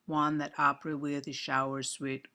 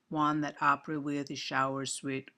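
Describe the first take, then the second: First: Every word gets roughly equal, even stress. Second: Every word gets roughly equal, even stress.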